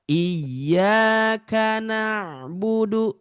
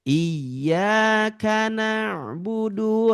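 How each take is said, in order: Both takes have the same delivery.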